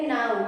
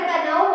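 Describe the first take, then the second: First: The word begins with an n sound. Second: The word begins with a k sound. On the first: The speaker calls it right. "इसमें के silent है, इसलिए इसको एन से शुरू करके बोलेंगे नाउ" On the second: The speaker calls it wrong. "अगर कनऊ बोल देंगे तो इस इसका प्रोनाउंसिएशन गलत हो गया"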